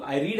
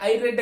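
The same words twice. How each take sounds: First: "read" said with a long ee, like "reed"; present-tense pronunciation. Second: "read" said with a short e, like "red"; past-tense pronunciation. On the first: Teacher shows the class daily present tense, "read" pronounced "reed". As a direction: say "read" to rhyme with "need". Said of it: "వీటికి pronunciation వేరేగా ఉంది". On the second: Teacher shows the class finished past action, "read" pronounced "red". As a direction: say "read" to rhyme with "bed". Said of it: "pronunciation తో మన different తో". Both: Shown as a demonstration.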